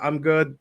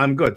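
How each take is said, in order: First: It is said softly and politely. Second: It is said loudly and forcefully.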